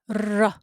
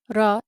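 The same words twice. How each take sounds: First: The r sound is held longer and doubled. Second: The r sound is short and single. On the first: The speaker calls it right. "it's ra" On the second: The speaker calls it wrong. "Is not ra"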